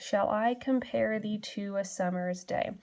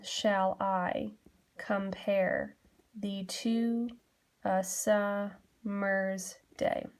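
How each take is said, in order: First: Said in the usual way. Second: "Shall I / compare / thee to / a summer's day", slow, with pauses between feet; broken into metric feet. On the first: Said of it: "I can hear that there is a rhythm". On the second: Shown as a demonstration. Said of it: "Breaking it down".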